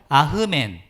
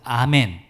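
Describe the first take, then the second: First: A breathy h sound follows the first vowel. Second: No breathy h sound follows the first vowel. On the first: This is the original Hebrew pronunciation. "아멘의 히브리식 발음은 아흐멘이에요" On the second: This is the later, settled pronunciation. "아멘으로 굳혀지게 된 것입니다"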